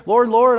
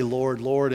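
First: Loud, high charismatic call of Lord; mock crazy-preacher fervor; raised voice. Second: Said in the usual way. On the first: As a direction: cry it out like a fired-up preacher. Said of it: "I raised my voice". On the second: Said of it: "they know the right language".

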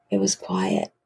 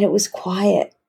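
First: Hushed, voice falling almost to breath. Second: Said in the usual way. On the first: Real, not acted. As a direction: drop to a low, soft near-whisper. Hushed repeat echoing the word quiet.

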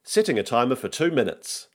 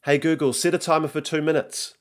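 First: Higher, even virtual assistant voice; measured automated confirmation; Google Assistant. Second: Put-on high-pitched boy giving a command; child's higher voice, instructing the device; young son. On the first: Acted. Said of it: "says the Google Assistant". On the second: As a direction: call to the gadget like a kid. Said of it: "says Nico".

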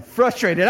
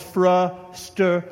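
First: "Frustrated" spelled out clearly as frus-tray-ted; careful pronunciation. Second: "frustrated" slurred as frus-tuh with the end swallowed; mispronounced word. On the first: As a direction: say every syllable of "Frustrated" like a phonics lesson. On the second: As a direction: mumble "frustrated" so the last syllables vanish. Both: Shown as a demonstration. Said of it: "That's Hooked on Phonics right there".

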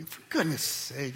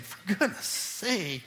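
First: Said in the usual way. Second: Parent's scold. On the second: Shown as a demonstration. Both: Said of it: "That's how parents say it".

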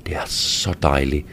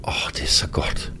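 First: Soft pleasured whisper; hushed whisper close to her ear. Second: Breathless lower whisper of delight; soft aroused whisper; whispered pleasure. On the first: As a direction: breathe it out as a low whisper. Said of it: "hvisker jeg". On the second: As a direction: whisper it softly, overcome with pleasure. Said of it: "siger jeg". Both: A narrator's reading.

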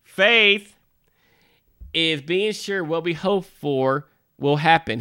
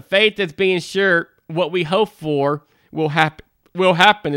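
First: Serious and deliberate, with pauses. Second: Reading through the hiccups; speaking with hiccups breaking in. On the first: Shown as a demonstration. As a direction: read it solemnly, pausing after faith. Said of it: "getting back to our serious side". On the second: Real, not acted. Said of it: "I got the hiccups".

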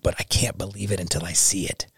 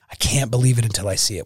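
First: Put-on hushed, breathy-free whisper of the old doubt. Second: Said in the usual way. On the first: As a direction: whisper it like a private confession. Recalling doubt before faith.

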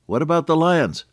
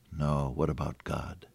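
First: Put-on high-pitched anxious small child; little boy. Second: Low, soft, settled answer; calm older sister. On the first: Little boy asking his sister about lions, worried. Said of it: "the little boy said". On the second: Acted. Sister answering her brother across the room, calm. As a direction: gently counter the worry, much lower and softer. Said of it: "his sister's voice came in".

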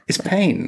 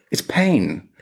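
First: "pain" said again on a much higher pitch; emphatic repeat. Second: Said in the usual way. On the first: Real, not acted. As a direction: hit "pain" harder the second time. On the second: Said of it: "it's not comfortable".

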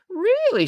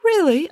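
First: High-pitched eager surprise; delighted high questioning lift; keenly interested. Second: High-pitched polite interest; politely lifted high question. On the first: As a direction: perk up with sudden interest. Judith's interest caught by gifts. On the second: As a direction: ask with courteous, mild surprise. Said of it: "asked Joseph politely". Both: A narrator's reading.

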